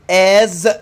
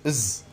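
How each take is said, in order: First: The word is said in its full, strong form. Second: The word is said in a reduced, weak form.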